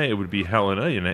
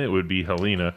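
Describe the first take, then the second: First: The name is pronounced the Montana way. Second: The name is pronounced the Alabama way. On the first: "In Montana, it would be Helena" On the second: "Here in Alabama, it would be Helena"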